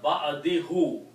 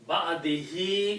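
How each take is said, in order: First: The final syllable ends with an 'oo' vowel. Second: The final syllable ends with an 'ee' vowel. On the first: The speaker calls it wrong. "instead of" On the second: The speaker calls it right. "is easy to pronounce"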